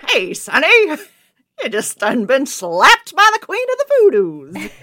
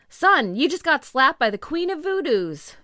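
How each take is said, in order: First: Loud, high, hammed-up thirties American accent; 1930s accent. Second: Lightly acted, raised-pitch quote; quoted exclamation. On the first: Shown as a demonstration. Podcaster plays the clerk addressing a slapped man, big 1930s accent. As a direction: belt it out like a 1930s movie character. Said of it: "in a nineteen thirties accent". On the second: Podcaster reads the clerk's words to a slapped man, lightly acted exclamation. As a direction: read the quote out louder and higher. Quoting clerk, before accent attempt.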